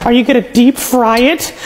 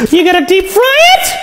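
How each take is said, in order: First: Said in the usual way. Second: Higher, shouted question with soaring end; incredulous. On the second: Acted. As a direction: repeat it in rising disbelief. Question repeated in rising alarm.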